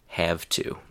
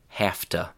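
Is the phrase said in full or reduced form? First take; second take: full; reduced. First: The phrase is said in its full form. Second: The phrase is reduced, like hafta. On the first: "instead of" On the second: "chewing gum English"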